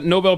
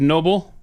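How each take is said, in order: First: It is said as the usual prize name Nobel. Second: It is said like the ordinary word noble. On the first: "Nobel Peace Prize" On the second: "She said noble"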